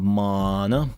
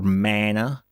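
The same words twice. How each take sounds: First: The word is said in a non-American accent. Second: The word is said in an American accent.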